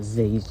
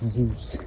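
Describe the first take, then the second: First: Zeus is said in the esports style. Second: Zeus is said in the standard way. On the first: The speaker calls it wrong. "I'm saying it like Zeus. But it's not Zeus" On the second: The speaker calls it right. "it's Zeus"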